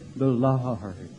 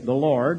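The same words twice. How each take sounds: First: It is said in an exaggerated, emotional, holy tone. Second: It is said in a plain, ordinary tone. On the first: "they say the Lord. It's just so holy" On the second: "They never say the Lord"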